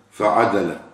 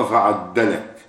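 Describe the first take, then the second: First: "فعدلك" as fa-'adalaka, light single d; "فعدلك" read fa'adalaka, the d unstressed and short; first Quran reading. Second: "فعدلك" as fa-'addalaka, doubled stressed d; "فعدلك" read fa'addalaka, lean on the doubled dal; second Quran reading. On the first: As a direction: say "فعدلك" with a plain single dal, falling at the end. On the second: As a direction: say "فعدلك" with a held double dal, then fall. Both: Shown as a demonstration. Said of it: "وفي قراءة".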